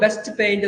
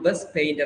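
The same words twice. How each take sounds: First: The t at the end of 'best' is pronounced. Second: The t at the end of 'best' is dropped.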